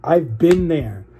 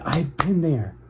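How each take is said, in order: First: Slow, heavy, each word weighed; real feeling, drawn out slowly; emotional repeat. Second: Said in the usual way. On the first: Real, not acted. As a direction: let the memory land, very slowly. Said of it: "I don't wanna get emotional". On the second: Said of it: "Oh my God, I don't wanna get emotional".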